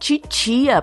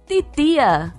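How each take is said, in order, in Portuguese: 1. Os sons de T são suaves, com som de tch. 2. Os sons de T são t simples, secos.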